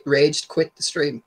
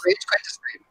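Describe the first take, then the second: First: Slow repeat. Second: Half-swallowed, barely voiced question; mumbled question. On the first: Co-host repeats his question slowly after the guest mishears. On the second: Co-host mumbles a quick question the guest misses. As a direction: throw it away under your breath. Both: Real, not acted. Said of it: "Sorry, what'd you say?".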